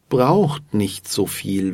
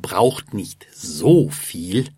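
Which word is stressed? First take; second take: braucht; so. First: The word so carries no special stress. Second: The word so carries the main stress.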